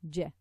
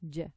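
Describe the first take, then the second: First: The j sound is strong and firm. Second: The same.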